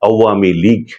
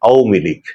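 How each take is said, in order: First: The 'w' glide sound is clearly pronounced. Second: The 'w' glide sound is dropped. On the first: The speaker calls it right. "এমন করে বলতে হবে" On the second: The speaker calls it wrong. "অন্তস্থ অকে বাদ দিয়ে"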